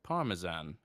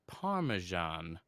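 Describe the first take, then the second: First: "Parmesan" said British-style as PAR-muh-zan; British pronunciation. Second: "Parmesan" said American-style as PAR-muh-zhahn; American pronunciation. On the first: Contrasting what we call the cheese, "Parmesan" pronounced PAR-muh-zan. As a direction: say "Parmesan" with a plain z and short "zan". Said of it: "whereas we, we call it". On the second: Quoting a San Diego friend's cheese, "Parmesan" pronounced PAR-muh-zhahn. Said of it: "he said that it's pronounced". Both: Shown as a demonstration.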